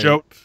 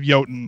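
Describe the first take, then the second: First: The word begins with a J sound. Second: The word begins with a Y sound. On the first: This is the name chosen for marketing. "it was a marketing decision to call it" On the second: This is the original name. "instead of"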